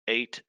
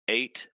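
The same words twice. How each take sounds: The two takes are said the same way.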